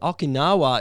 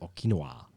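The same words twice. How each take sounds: First: It is said with an American pronunciation. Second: It is said with a Japanese pronunciation. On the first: "is often what I've heard is the is the American pronunciation" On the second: "a Japanese gentleman once who corrected me to be Okinawa"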